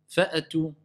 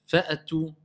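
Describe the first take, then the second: No difference in how they are said.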